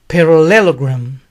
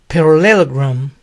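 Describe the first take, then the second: The two takes are said the same way.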